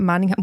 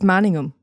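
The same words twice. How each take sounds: First: The final 'ham' is punched out strongly. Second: The final 'ham' is light and reduced. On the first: The speaker calls it wrong. "not Manningham" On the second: The speaker calls it right. "It's Manningham"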